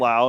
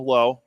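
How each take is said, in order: First: The name rhymes with 'how'. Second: The name rhymes with 'go'. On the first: This is how another player says the same name. "Brandon Lau" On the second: This is how one player says his name. "Josh Lowe, not Lau, Lowe"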